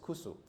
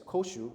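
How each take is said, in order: First: The word has a u vowel and s sound. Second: The word has an o vowel and sh sound. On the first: This is the dialect form of the word. "you pronounce it as kusu. So it's, a, it's just basically a dialect" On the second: This is the standard form of the word. "rather than pronouncing it as koshu"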